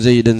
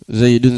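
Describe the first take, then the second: First: The word ends with the vowel a. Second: The word ends with the vowel u. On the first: The word is in the accusative case. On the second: The word is in the nominative case.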